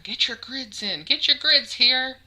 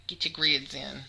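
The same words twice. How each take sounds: First: Lurid sideshow teasing. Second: Said in the usual way. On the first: Acted. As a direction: hawk it like a sideshow barker. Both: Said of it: "like I'm some kind of sideshow barker".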